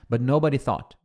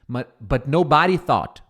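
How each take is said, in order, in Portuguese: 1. A sílaba tônica de nobody cai na primeira sílaba. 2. A sílaba tônica de nobody cai na segunda sílaba. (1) "Agora o, o jeito correto" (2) "Olha como soa melhor do que but nobody thought"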